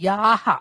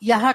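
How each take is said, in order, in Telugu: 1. ఈ అచ్చు దీర్ఘంగా ఉంది. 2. ఈ అచ్చు హ్రస్వంగా ఉంది. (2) "యహ కాదు"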